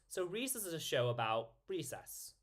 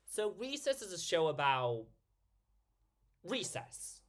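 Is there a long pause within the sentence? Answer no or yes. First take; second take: no; yes. First: The sentence runs on without a long pause. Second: A long pause comes inside the sentence. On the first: The joke passes too quickly. The speaker calls it wrong. "rather than just" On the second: The pause gives the joke time to land. The speaker calls it right. "There need there need to be a longer pause to get that"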